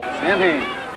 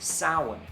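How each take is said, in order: First: The name is said as 'Sam Hain'. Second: The name is not said as 'Sam Hain'. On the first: This is shorthand so people know the band. "says [name] when he's talking in shorthand" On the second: This is the proper way to say the name. "it's pronounced Samhain"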